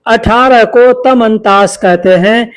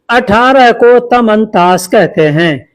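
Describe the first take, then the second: No difference in how they are said.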